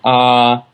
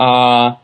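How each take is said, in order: First: The vowel is sounded with the vocal folds vibrating. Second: The same.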